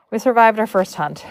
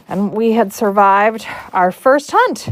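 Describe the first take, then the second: First: Said in the usual way. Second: Triumphant announcement. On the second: Real, not acted. Storyteller ending her first hunt tale, triumphant lift. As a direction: announce it proudly, lifting the last word.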